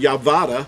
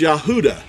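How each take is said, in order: First: The middle consonant is a V sound. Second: The middle consonant is an H sound. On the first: The speaker calls it wrong. "we could not pronounce Yehuda Yavada" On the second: The speaker calls it right. "It's Yahuda. That's how Yehuda was pronounced"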